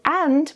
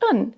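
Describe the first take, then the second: First: Full open vowel with a clear final d. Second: Reduced to a short 'un' sound. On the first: "a very open and clear a vowel and a very clear d" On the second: "reduced even further to just un"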